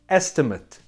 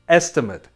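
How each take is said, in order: First: It is pronounced as the noun form. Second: The same.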